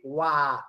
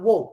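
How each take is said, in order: First: The vowel is open, like 'ah', American-sounding. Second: The vowel is rounded, like 'oh', British-sounding. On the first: The speaker calls it right. "can you speak American English? Can you say "wah" walking?" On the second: The speaker calls it wrong. "not "whoa." That is England"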